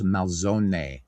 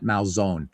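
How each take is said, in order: First: Malzone with the final E sounded like ay, mal-ZO-neh; Malzone, four syllables, last vowel pronounced; Italian Malzone. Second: Malzone with a silent final E, two syllables, mal-ZONE; anglicized Malzone. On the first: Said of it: "there are no silent letters". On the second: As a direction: say Malzone the American way, dropping the last vowel. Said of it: "not Malzone". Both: Shown as a demonstration.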